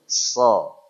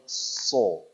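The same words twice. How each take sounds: First: It is said with lips spread in a smile. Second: It is said with both lips pushed forward. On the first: The speaker calls it right. "Saya bahkan bisa sambil senyum" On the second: The speaker calls it wrong. "Monyong, dua-dua bibir maju nggak boleh"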